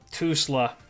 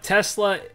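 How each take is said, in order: First: The name is said with an odd, altered vowel. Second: The name is said with its usual vowel. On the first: The speaker calls it wrong. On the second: The speaker calls it right.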